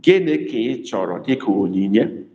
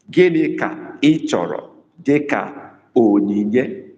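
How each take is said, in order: First: Said in the usual way. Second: Gịnị ka ị chọrọ dịka onyinye said slowly, word by word; slow, careful dictation. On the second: Shown as a demonstration. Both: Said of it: "I have to ask you a question".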